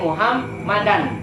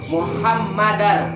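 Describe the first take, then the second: First: The word ends with an n sound. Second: The word ends with an r sound. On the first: The speaker calls it wrong. "Enggak boleh Muhammadan" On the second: The speaker calls it right. "wa asyhadu anna Muhammadar"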